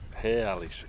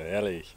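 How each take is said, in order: First: It is said in a Cologne accent. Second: It is said in the local accent. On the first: The speaker calls it wrong. "Ich bin zu lange mit den Kölnern unterwegs gewesen" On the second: The speaker calls it right. "Herrlich heißt das hier"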